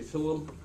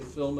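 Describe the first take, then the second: First: The word is said with an imitated foreign accent. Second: The word is said in a plain standard way. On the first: This copies another person's habit of speech. "you start pronouncing words like he does" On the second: This is the ordinary way to say it. "You don't say film anymore"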